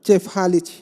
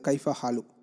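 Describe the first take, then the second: First: It is said in Lebanese village dialect form. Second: It is said in Standard Arabic form. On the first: "லெபனானில் இருக்கக்கூடிய அந்த ஃபல்லாஹின மக்கள்" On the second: "how are you அப்படின்னு சொல்லிட்டு கேட்குறதுக்காக உபயோகப்படுத்தக்கூடிய இந்த அரபு சொற்றொடர்"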